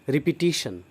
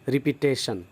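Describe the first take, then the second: First: The syllable after the t sounds like 'tish'. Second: The syllable after the t sounds like 'tesh'. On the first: The speaker calls it right. "टीशन बोलना चाहिए" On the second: The speaker calls it wrong. "टेशन नहीं बोलना चाहिए"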